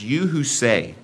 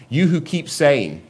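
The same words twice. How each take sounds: First: Said in the usual way. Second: "keep saying" slowed and lifted higher; stress on keep saying. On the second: Shown as a demonstration. Preacher stressing the ongoing habit, slow and higher on "keep saying". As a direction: lean hard on "keep saying", slowly. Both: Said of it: "It's not you who said one time".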